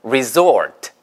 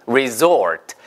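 No difference in how they are said.

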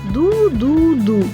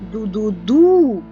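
First: All three syllables are said evenly, none stressed. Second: The last syllable is stressed. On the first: "Він грає її рівно" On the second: "Бо ми виділяємо наголосом останній склад"

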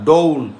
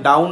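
First: The vowel sounds like the vowel in law. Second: The vowel sounds like the vowel in down. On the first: The speaker calls it right. "এটা উচ্চারণ হচ্ছে ডাউন" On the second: The speaker calls it wrong. "এটা উচ্চারণ কিন্তু ডাউন না"

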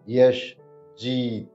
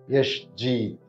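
First: It is said slowly. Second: It is said at normal speed.

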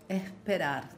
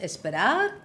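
First: The consonant before the p is a breathy h. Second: The consonant before the p is a clear s. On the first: "das S nicht nur verschluckt, sondern durch ein H ersetzt" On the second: "Aus esperar"

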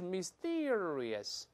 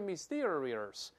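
First: The middle syllable has no curled r sound. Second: The middle syllable has a curled r sound. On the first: The speaker calls it right. "而是Mysterious" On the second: The speaker calls it wrong. "不是Mysterious"

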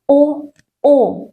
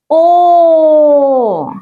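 First: The vowel is cut off short. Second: The vowel is drawn out long. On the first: "Нібито рвем коротку ниточку" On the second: "Клубочок буде ниточка довгою-довгою"

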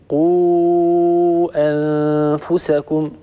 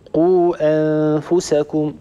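First: The long vowel before the glottal stop is lengthened. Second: The long vowel before the glottal stop is short.

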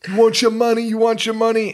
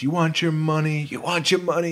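First: It is said in a New York accent. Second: It is said in his ordinary voice.

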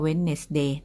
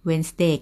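First: Every written syllable, including the d, is pronounced. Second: The d is silent, giving two syllables. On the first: This is how it is memorized for spelling. "จะครูจะท่องว่า" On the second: This is how it is said in speech. "นะครูจะพูดว่า"

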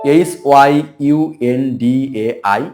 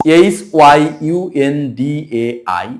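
Both takes have the same delivery.

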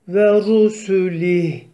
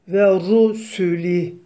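Both takes have the same delivery.

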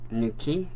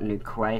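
First: The second syllable sounds like key. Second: The second syllable sounds like kway. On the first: The speaker calls it right. "I believe that's how you pronounce it" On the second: The speaker calls it wrong. "Not new quay, how I used to pronounce it"

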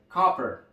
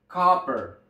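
First: The first vowel is an open 'a' sound. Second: The first vowel is an open 'a' sound.

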